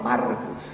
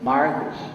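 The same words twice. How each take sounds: First: The name is said with a southern Gaúcho accent. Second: The name is said with a São Paulo accent. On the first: This is their own native way of speaking. "gaúcho fala Marcos" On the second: They copied their admired mentor's way of speaking. "Isso é paulista que fala"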